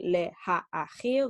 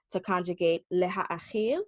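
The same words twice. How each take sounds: First: "Leha'achil" spoken slowly, each syllable apart. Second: Said in the usual way. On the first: Shown as a demonstration. Hebrew teacher showing students the syllables in "Leha'achil", slow and deliberate. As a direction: stretch out "Leha'achil" so every syllable is heard. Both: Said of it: "there you hear those syllables".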